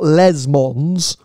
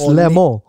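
First: An S sound is pronounced at the end. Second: No S sound is pronounced at the end. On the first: The speaker calls it wrong. "it's not Les Mons" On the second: The speaker calls it right. "you don't pronounce the S at the end. It's Le Mans"

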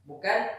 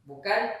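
No difference in how they are said.

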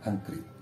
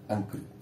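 Both takes have the same delivery.

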